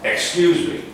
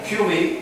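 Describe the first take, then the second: First: Every syllable is pronounced, including the first. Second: The first syllable is dropped, leaving 'cue me'. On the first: The speaker calls it right. "No, excuse me" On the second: The speaker calls it wrong. "Not a cue me"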